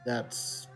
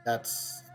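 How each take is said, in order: Both takes have the same delivery.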